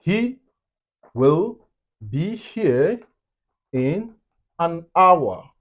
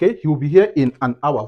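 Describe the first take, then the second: First: Higher pitch, pauses between the words; slow word-by-word. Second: Said in the usual way. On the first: Shown as a demonstration. Teacher giving an example sentence, slow and separated. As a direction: lay out the sentence slowly for learners.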